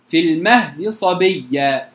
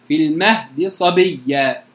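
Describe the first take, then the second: Both takes have the same delivery.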